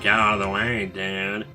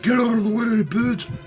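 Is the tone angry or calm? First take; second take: calm; angry. First: It is said in a calm, relaxed tone. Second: It is shouted in an angry tone.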